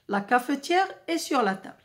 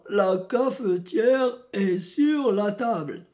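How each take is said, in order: First: The voice is at a normal, even pitch. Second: The voice is deep, from the throat. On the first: "j'utilise le ton régulier" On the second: "je peux utiliser la voix grave"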